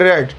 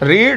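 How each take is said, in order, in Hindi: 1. स्वर छोटी 'eh' ध्वनि है। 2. स्वर लंबी 'ee' ध्वनि है। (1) "मगर बोलने में आती है रेड" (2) "लिखने में आती है रीड"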